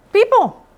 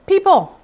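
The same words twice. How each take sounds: First: People pitched up and falling hard; emphatic repeat. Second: Said in the usual way. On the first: Shown as a demonstration. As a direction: call People out higher, with weight.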